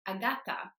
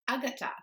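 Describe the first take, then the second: First: The stress is on the second syllable. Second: The stress is on the first syllable. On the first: The speaker calls it right. "is stressed on the second syllable from the end" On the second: The speaker calls it wrong. "They stress the first syllable"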